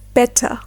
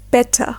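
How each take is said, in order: First: The middle T is clearly pronounced as T. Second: The same.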